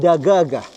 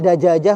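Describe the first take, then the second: First: The middle consonants are hard g sounds. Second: The middle consonants are j sounds.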